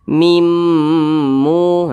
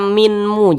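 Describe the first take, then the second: First: The n sound merges completely into the m. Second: The n sound is pronounced separately before m. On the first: The speaker calls it right. "tapi dibaca mimmu" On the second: The speaker calls it wrong. "jangan dibaca minmu"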